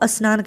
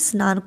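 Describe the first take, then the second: First: An extra vowel is added before the word. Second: The word starts directly with the consonant cluster. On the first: The speaker calls it wrong. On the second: The speaker calls it right.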